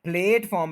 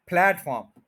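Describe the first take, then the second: First: प्लेटफॉर्म as PLAYT-form; long e vowel. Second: प्लेटफॉर्म as PLAT-form, rhyming with flat; short open vowel. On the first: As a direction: say plate at the start of प्लेटफॉर्म. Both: Shown as a demonstration. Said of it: "नहीं कहना इसको".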